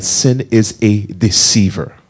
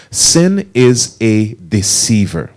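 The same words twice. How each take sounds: First: Said in the usual way. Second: Slow, spaced-out teaching line; leading congregation repetition. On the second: Shown as a demonstration. Preacher has the congregation say it along, slow and deliberate. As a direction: say it slowly for others to join in. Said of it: "Say that with me".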